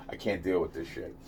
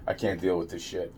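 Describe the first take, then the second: First: Much softer, lower; exasperated. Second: Softer and lower; exasperated. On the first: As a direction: sink into a tired mutter. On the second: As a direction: let the weariness drag it down. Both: Real, not acted. Repeated exasperated line.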